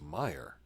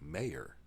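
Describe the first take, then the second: First: The name sounds like the name Meyer. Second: The name sounds like the word mayor. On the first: It is the name's actual pronunciation. "It's pronounced Meyer" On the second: It is read the way it is spelled. "Brain thinking M A Y E R would be mayor"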